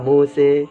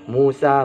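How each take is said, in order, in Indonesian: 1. Kata ini berakhir dengan vokal E. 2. Kata ini berakhir dengan vokal A terbuka. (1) "boleh baca E" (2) "Kalau A ya A"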